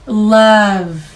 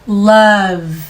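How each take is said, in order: No difference in how they are said.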